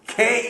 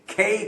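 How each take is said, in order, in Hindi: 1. K को हवा के तेज़ झोंके के साथ बोला जाता है। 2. K को हवा के तेज़ झोंके के साथ बोला जाता है।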